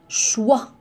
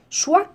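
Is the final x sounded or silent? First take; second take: silent; sounded. First: The final x is silent. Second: The final x is pronounced as a sound. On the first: The speaker calls it right. "la lettre X ne se prononce pas" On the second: The speaker calls it wrong.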